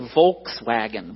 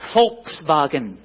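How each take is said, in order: First: The word begins with a W sound. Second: The word begins with a V sound. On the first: "We say Volkswagen" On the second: "how do the Germans say it?"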